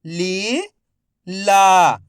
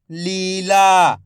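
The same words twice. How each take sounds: First: "Leela" split into ली, pause, ला, each drawn out; syllable by syllable. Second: "Leela" joined as one word, long vowels; syllables blended. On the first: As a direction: sound out "Leela" slowly, ली rising, ला falling. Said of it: "एक एक अक्षर का उच्चारण". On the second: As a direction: say "Leela" in one connected stretch. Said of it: "तो मिलके बन जाएगा". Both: Shown as a demonstration.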